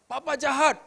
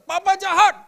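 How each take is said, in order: First: Put-on high, a bit louder child's complaint; child's cry retold. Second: Put-on high, loud child's cry of betrayal; child's shout. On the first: Preacher recalling his child's shout, higher and louder. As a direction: repeat the child's accusation, raised. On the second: Child shouting at his father, loud and high. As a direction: yell it like a hurt child at his dad. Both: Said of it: "anak saya teriak".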